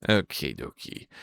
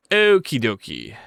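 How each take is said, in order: First: Much lower, soft; deep okie dokie. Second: Said in the usual way. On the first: Pretend. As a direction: drop the voice low for okie.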